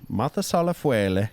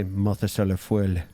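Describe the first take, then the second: First: "Mothus à la feuille" Italian-style, feuille as "fwele"; Italian-sounding French. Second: "Mothus à la feuille" French-style, feuille as one syllable "fwil"; attempted French accent. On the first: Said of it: "No, it sounds Italian". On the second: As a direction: try "Mothus à la feuille" in French, dropping the final "-eh". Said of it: "because French has that weird, like, um, no-, nas-, nasal". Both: Shown as a demonstration.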